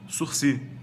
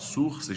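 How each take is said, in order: First: The final s is silent. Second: The final s is pronounced. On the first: The speaker calls it right. "a palavra de origem francesa fala-se sursi" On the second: The speaker calls it wrong. "Não é português nem latim para falar sursis"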